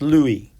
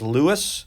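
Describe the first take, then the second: First: The name is pronounced the French way. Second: The name is pronounced the American way. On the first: The speaker calls it right. "in France it's pronounced Louis" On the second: The speaker calls it wrong. "a lot of Americans would read that as Louis"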